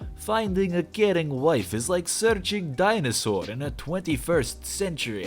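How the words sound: It is read in a cheesy Russian accent.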